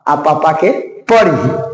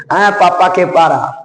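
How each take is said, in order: First: Slow and teasing, परी with a short first vowel: pə-ri; the slow joke line "पापा के परी", with परी said short as pə-ri; परी, drawn out. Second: Slow and drawn out, the long आ of पारा held: paaraa; the teacher stretches पारा slowly as a joke, "पापा के पारा". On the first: Teacher contrasts परी with पारा, saying it slowly and playfully. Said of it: "परी, तो यहाँ पर देखो". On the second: Students are told to hear पारा said slowly, with its long आ stretched. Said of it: "देखो पारा". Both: Shown as a demonstration.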